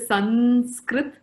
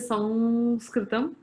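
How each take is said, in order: First: An n-like nasal, with no -am ending. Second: An n-like nasal before s, ending in -am. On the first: This is how it is said in the north. "In the north, they will say" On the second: This is how it is said in Maharashtra. "In Maharashtra and all, they will say"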